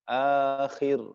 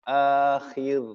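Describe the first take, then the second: The two takes are said the same way.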